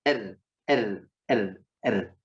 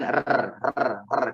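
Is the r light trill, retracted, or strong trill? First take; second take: light trill; strong trill. First: The r is thin with a light, partial trill. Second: The r is rolled with a strong, long trill. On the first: The speaker calls it right. "tipis dan setengahnya" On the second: The speaker calls it wrong. "Tidak juga bergetar pisan"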